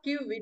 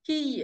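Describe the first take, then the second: First: The syllable sounds like kyu. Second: The syllable sounds like ki. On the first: The speaker calls it wrong. "It is not Q" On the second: The speaker calls it right. "it is Ki"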